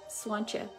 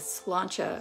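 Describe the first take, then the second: First: The L after the S sounds like a W. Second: The L after the S is clearly pronounced. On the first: "pronounce the L like with a W sound" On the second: "they pronounce the L"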